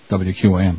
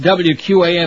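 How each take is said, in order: First: It is said lower and quieter. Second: It is said at normal level.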